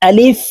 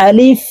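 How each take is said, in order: No difference in how they are said.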